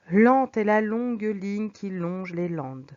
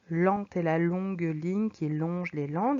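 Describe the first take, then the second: First: Slow, "Lente" and "longue" drawn out on the L; slow languid reading. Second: Even slower languid take. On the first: Teacher reads slowly to show languor. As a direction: stretch the L words lazily. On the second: Teacher repeats the line to stress the slow L. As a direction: lower and slow, "landes" drawn out with the L lingering. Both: Shown as a demonstration. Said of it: "langueur, de lenteur".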